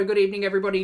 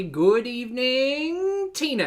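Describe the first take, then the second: First: Said in the usual way. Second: High, slow, stretched good evening; sing-song the evening out long; drawn-out high greeting. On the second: Pretend. Host drawing out a greeting to the live chat, high and slow.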